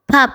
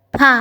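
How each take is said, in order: First: "pap" closed by a soft b at the end; soft final B. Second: "Pa" ending openly on the vowel a; no final consonant. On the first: Korean teacher demonstrates badjim, "pap" ending in a soft B. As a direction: close "pap" gently on its last consonant. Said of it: "B soft ah ayaana lagu dhawaaqaa". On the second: Korean teacher contrasts syllables without and with badjim, "Pa" left open. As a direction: say "Pa" with no consonant closing it. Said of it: "Dhawaaqu wuxuu ku dhammaaday a". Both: Shown as a demonstration.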